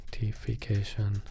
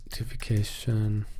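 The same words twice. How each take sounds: The two takes are said the same way.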